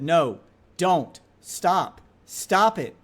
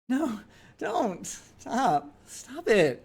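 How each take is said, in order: First: It is said flatly with no expression. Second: It is said playfully with lively expression. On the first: She wanted it to stop. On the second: She did not really want it to stop.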